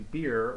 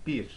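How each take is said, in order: First: The vowel sounds like the English word beer. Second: The vowel is a short Turkish i sound. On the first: The speaker calls it wrong. "we don't say beer" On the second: The speaker calls it right. "we say bir"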